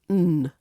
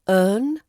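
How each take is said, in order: First: The word is only an n sound. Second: The word is a weak vowel plus n. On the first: "which becomes earn or n" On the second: "which becomes earn or n"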